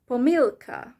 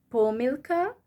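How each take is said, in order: First: "pomilka" with MIL punched, falling after; stress on the I. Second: "pomilka" with weight on PO, rising at the end; stress on the O. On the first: Teacher gives the other option, stress on the I. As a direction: hit the middle syllable of "pomilka". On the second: Teacher gives first of two options, stress on the O. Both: Shown as a demonstration. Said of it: "O and E, these, um, have stress on it".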